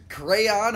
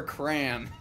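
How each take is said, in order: First: CRAYON drawn out as "CRAY-on"; two-syllable crayon. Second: CRAN, crayon squashed into one syllable. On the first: Streamer comparing crayon or cran, CRAYON slowly in two syllables. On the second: Streamer comparing crayon or cran, CRAN as one slow syllable. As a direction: slowly say CRAN, rhyming with "man". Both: Shown as a demonstration. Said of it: "crayon or cran?".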